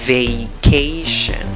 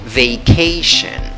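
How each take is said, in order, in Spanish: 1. La primera sílaba tiene una vocal 'ay' completa. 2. La primera sílaba tiene una vocal 'ay' completa.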